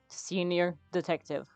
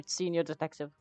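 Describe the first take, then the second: First: It is said slowly. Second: It is said at normal speed.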